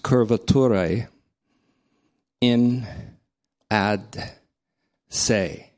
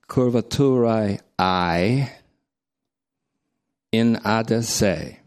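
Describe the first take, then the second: First: The first word ends without an added 'ee' sound. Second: The first word ends with an added 'ee' sound. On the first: The speaker calls it wrong. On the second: The speaker calls it right.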